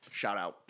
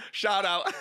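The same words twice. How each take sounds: First: Low, soft, throwaway mumble; quiet mumbled shout-out; muttered aside. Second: Upbeat announced shout-out; proper shout-out. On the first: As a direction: say it under your breath. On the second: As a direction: call it out with a grin. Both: Shown as a demonstration.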